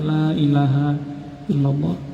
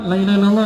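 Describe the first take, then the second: First: It is said softly and slowly, calmly. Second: It is said pushily and insistently, repeated. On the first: The dying person is left calm and undisturbed. The speaker calls it right. "Pelan-pelan saja di telinga" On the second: The dying person is being pressured. The speaker calls it wrong. "Jangan usah ngotot. ... Enggak boleh kayak gitu"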